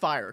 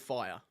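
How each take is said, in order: First: It is said in an American accent. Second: It is said in an Australian accent. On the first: The speaker calls it right. "My American accent has come so far" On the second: The speaker calls it wrong. "my accent just completely kills it too"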